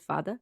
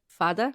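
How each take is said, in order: First: "Fada" said softly as FAH-duh, first syllable stressed; saying the word. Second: "Fada" repeated for a confused friend, clear fah-duh; repeating the word. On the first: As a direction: drop the voice on "Fada" as a quick aside. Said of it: "It's A with a little accent". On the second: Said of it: "A what?". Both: Shown as a demonstration.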